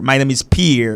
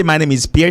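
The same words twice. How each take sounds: First: Pierre said the American way, peer. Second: Pierre said the French way, piehr. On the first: Teacher showing a caller the American Pierre, peer. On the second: Teacher modelling a French name for a caller, piehr. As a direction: say Pierre with the French vowel glide. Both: Shown as a demonstration. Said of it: "Americans say Pierre".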